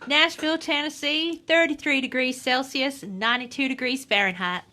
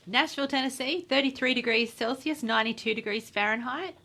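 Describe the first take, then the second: First: It is read in a Southern American accent. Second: It is read in a plain, ordinary accent.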